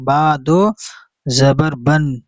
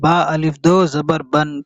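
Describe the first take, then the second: First: "बा" goes directly to "दो", no "अलिफ" spoken; silent alif. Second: "अलिफ" voiced as a separate word after "बा"; mistaken reading with alif. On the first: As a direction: read "बा दो" straight through, leaving the alif silent. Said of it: "direct पढ़ेंगे". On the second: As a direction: quickly read out "अलिफ" between "बा" and "दो". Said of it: "इस तरीके से पढ़ना ठीक नहीं है". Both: Shown as a demonstration.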